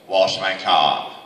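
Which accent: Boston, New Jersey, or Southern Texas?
Boston. It is said in a Boston accent.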